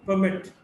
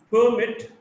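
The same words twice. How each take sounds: First: "permit" as per-MIT; weak start, strong MIT in "permit"; stress on second syllable. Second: "permit" as PER-mit; stress on first syllable. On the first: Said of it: "stressed in the second syllable". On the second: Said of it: "stressed in the first syllable". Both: Shown as a demonstration.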